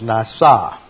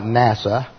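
First: It is said with the Hebrew pronunciation. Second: It is said like the English acronym NASA. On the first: The speaker calls it right. "That is nasa" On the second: The speaker calls it wrong. "It's not NASA"

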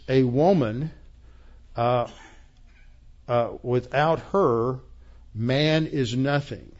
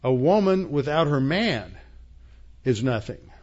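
First: There are pauses after woman and after her. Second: There is a pause after man only.

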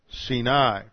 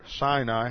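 First: The stress is on the second syllable. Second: The stress is on the first syllable. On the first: The speaker calls it right. "the accent's on the second syllable" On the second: The speaker calls it wrong. "how most people pronounce it"

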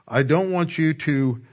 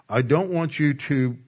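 No difference in how they are said.

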